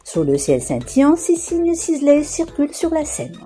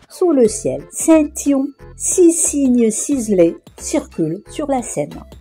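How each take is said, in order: First: The sentence is said at a faster pace. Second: The sentence is said at a slower pace.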